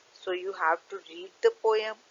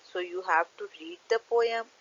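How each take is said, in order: Both takes have the same delivery.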